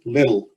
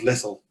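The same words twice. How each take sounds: First: It is said with an American-style pronunciation. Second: It is said with a British-style pronunciation. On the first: The speaker picked up the accent abroad. "they say little" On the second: This is the speaker's original home pronunciation. "instead of little"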